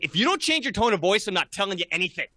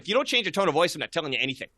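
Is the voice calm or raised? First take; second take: raised; calm. First: It is said in a loud, raised voice. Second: It is said in a calm, level voice.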